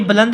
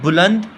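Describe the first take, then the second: First: The first vowel is an 'a' sound. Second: The first vowel is a 'u' sound. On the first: The speaker calls it right. "बुलंद के ऊपर ज़बर है ना के पेश, ये बुलंद हमारे पास सही है" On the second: The speaker calls it wrong. "ये गलत है"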